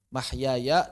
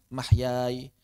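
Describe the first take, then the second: First: The final ya carries a short a vowel. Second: The final ya is silent, with no vowel.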